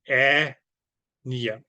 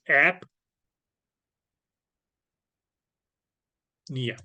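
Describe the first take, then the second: First: The p sound is left out. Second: The p sound is clearly pronounced. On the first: The speaker calls it wrong. "Not really" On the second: The speaker calls it right. "the P is not silent"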